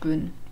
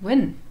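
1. Der Name beginnt mit einem G-Laut. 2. Der Name beginnt mit einem W-Laut. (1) "Nicht Gwyn" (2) "dabei ist es Win"

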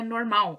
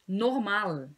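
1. Ela é falada com pronúncia portuguesa. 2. Ela é falada com pronúncia alemã. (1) "não é normal, como vocês falam no português" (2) "A ênfase é no ma, só que cuidado com a pronúncia do L"

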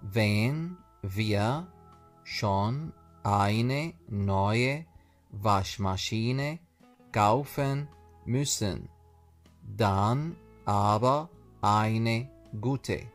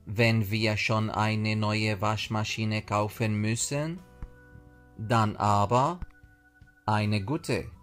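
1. تُقال الجملة بوتيرة أبطأ. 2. تُقال الجملة بوتيرة أسرع.

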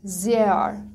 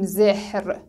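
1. حرف h خونده نمیشه و حرف صدادار کشیده تلفظ میشه. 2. حرف h بعد از حرف صدادار کوتاه خونده میشه. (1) "ها خونده نمیشه اما حرف صدا داره قبلش به صورت کشیده خونده میشه" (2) "نمیگیم زهر"

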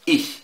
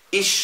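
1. الصوت الأخير همسة خفيفة وناعمة. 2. الصوت الأخير «sh» كامل وقوي. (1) "تبقى شين خفيفة" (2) "دي ما تجيش، دي غلط"

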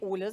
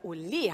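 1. Der Name wird einfach gesagt, ohne Energie. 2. Der Name wird mit lebhafter Energie gesagt. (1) "Nicht Ole" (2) "sondern Ole heißen die"

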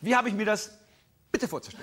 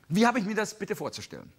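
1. Vor dem Wort bitte gibt es eine kurze Pause. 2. Die Frage läuft ohne Pause vor bitte durch. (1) "wenn sie ganz scharf wird, dann macht sie von dem Bitte eine kleine Pause" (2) "So fragt ihr immer"

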